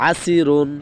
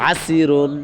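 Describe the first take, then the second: No difference in how they are said.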